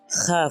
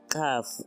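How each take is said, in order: First: The first consonant is a fricative. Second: The first consonant is a stop. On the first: "es fricativo" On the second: "su sonido es oclusivo"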